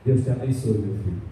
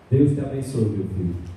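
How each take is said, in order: First: It is said in his normal voice. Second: It is said in a big booming voice.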